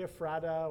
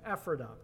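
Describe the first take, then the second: First: The name is said a different, non-local way. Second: The name is said the local Pennsylvania way. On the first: "you might say Ephrata or something else like that, fine" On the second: "I'll use the Pennsylvania pronunciation again"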